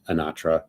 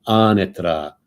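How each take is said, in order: First: Anatra stressed on the middle syllable, uh-NAH-truh; American version. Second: Anatra louder, first syllable stressed, AH-na-tra; Italian pronunciation. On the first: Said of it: "that's the American version". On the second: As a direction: demonstrate Anatra as an Italian would, with a tapped r. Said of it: "You have to say it like Italiano". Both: Retold or imitated.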